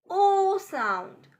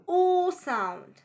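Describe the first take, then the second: No difference in how they are said.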